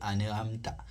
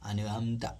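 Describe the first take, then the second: No difference in how they are said.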